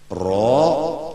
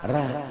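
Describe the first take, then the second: First: The syllable is said with an o-like vowel. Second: The syllable is said with an a-like vowel. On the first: The speaker calls it right. "mestinya R O" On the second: The speaker calls it wrong. "dibaca R A karena huruf Latin"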